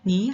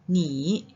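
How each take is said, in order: First: Ni is said with a rising tone. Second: Ni is said with a low dipping tone. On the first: "Ni dia akan tukar jadi tanda nada kedua" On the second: "dua tanda nada ketiga"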